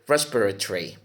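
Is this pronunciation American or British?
British. It is said with a British pronunciation. "if you go to the Longman Dictionary of English, you would hear"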